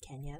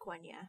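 First: The word begins with a plain k sound. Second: The word begins with a kw sound. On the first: The speaker calls it wrong. "I know it's not Kenya" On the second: The speaker calls it right. "It's pronounced Quenya"

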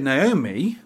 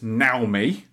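First: The name is said the English way. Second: The name is said the Japanese way.

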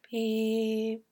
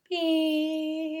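First: The beep is soft and flat. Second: The beep is brighter and more upbeat.

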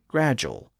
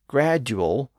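First: The middle sounds like a single 'j'. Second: The middle sounds like a separate 'd' plus 'y'.

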